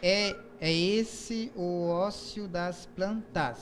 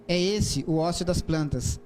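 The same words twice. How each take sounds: First: "é esse o ócio das plantas" counted out very slowly; slow metrical scansion of the line; syllable counting. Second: Haiku reading. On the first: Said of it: "Aí, o segundo verso". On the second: Reads haiku aloud. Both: Shown as a demonstration.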